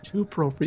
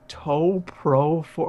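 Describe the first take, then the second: First: The first word sounds like 'two'. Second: The first word sounds like 'toe'. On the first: This is the intended reading of the name. The speaker calls it right. "It's Two Pro for you games" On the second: This is how others misread the name. The speaker calls it wrong. "they're just like"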